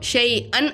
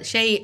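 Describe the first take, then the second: First: The word ends with a clear n sound. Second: The word ends without any n sound. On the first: The speaker calls it wrong. "சொல்லக்கூடாது" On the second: The speaker calls it right. "சொல்லணும்"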